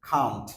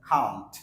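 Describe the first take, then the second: No difference in how they are said.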